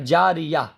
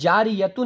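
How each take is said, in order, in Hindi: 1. शब्द सादे अ की ध्वनि पर खत्म होता है। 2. शब्द -तुन की ध्वनि पर खत्म होता है। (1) "तो देखिए अब जारिया" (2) "ये तो जारियतुन है ना"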